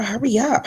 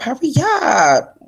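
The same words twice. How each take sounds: First: Said in the usual way. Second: Higher, slow stretched-out hurry up; drawn-out hurry up. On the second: Real, not acted. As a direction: drag the words out high and slow. Urging a friend to hurry.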